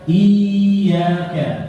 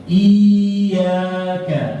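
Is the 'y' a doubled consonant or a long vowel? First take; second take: long vowel; long vowel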